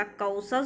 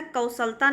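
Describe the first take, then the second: First: कौशल ending on the l; correct form कौशल. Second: कौशलता with an added -ता ending; wrong form कौशलता. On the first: Teacher gives students the correct form, कौशल without -ता. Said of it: "कौशल शुद्ध है". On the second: Teacher rejects a form for students, added -ता in कौशलता. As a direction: say कौशलता, ending in long taa. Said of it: "नहीं होता". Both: Shown as a demonstration.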